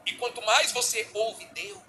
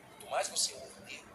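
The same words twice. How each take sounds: First: Slow, deliberate, weighted phrase; slow emphasis. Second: Soft whispered repeat; whispered echo. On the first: Pastor stressing hearing God to congregation, slow and emphatic. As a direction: lean on each word slowly. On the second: Pastor echoing his point to congregation, whispered. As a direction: drop it to a whisper. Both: Acted.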